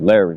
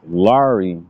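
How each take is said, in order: First: The name is pronounced with an American accent. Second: The name is pronounced with a French accent.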